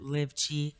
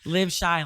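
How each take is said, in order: First: The name does not begin with an 'sh' sound. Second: The name begins with an 'sh' sound. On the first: This is how some other people say the name. "some people pronounce it Live Chi" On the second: This is the pronunciation the speaker gives first and uses. "Live Shy, like Chicago"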